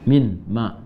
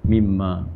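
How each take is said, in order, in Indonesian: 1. Dua kata terpisah, bunyi n tetap ada. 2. Satu kata gabungan dengan bunyi m yang dobel. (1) "maknya pakai min. Min, ma" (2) "Disatukan jadi mimma"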